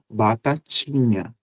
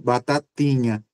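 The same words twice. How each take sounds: First: The t before i sounds like ch. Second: The t before i is a plain t. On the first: This is how the speaker's own region says it. "Na minha pronúncia, eu digo batatinha" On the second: This is how some other regions say it. "usarão o mesmo T da sílaba tá para a sílaba T I"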